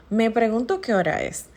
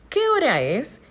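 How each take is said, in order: First: Said in the usual way. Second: "¿Qué hora es?" asked with a clear rise at the end on "es"; questioning rise. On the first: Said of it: "no necesariamente estoy haciendo una entonación correcta". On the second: Shown as a demonstration. Teacher showing students a direct question, rising. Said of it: "tampoco se utiliza la entonación adecuada".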